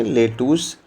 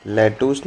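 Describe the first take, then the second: First: लेटूस with a closed e, "lay-toos"; corrected pronunciation. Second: लेटूस with an open e, "lae-toos"; rejected pronunciation. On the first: Teacher correcting pupils, लेटूस pronounced "lay-toos". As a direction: say लेटूस with first syllable like "lay". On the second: Teacher showing pupils what not to say, लेटूस as "lae-toos". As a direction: say लेटूस with a wide first vowel. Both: Shown as a demonstration. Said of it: "लेटूस बोलते हैं".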